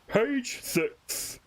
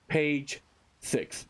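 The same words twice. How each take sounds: First: It is said in a put-on character voice. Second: It is said in the speaker's normal voice. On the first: The speaker calls it right. "I gotta do the voice" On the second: The speaker calls it wrong. "No, wait"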